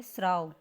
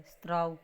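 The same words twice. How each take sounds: First: स्राव with s straight into r; correct pronunciation. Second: स्त्राव with a "t" between s and r; opening "str" cluster in स्त्राव; misspelling read out. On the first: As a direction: say स्राव as sraav. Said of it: "और इसने क्या लिख रखा है?". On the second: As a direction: say स्त्राव as straav. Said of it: "ऐसे लिख रखा है". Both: Shown as a demonstration.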